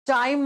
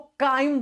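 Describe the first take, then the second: First: The word begins with a "ch" sound. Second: The word begins with a "k" sound. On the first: The speaker calls it wrong. "चाइम मत बोलिएगा इसको" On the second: The speaker calls it right. "उसको काइम बोलते हैं हम"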